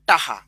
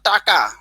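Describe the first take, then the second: First: The middle consonant is an h sound. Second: The middle consonant is a k sound.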